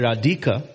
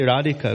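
First: The stress is on the second syllable. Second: The stress is on the first syllable. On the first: The speaker calls it wrong. "we don't say Radhika" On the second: The speaker calls it right. "We say Radhika because we know that one"

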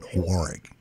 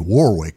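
First: It is said with a British pronunciation. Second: It is said with an American pronunciation. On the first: "the British call it Warwick" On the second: "The American pronunciation would be Warwick"

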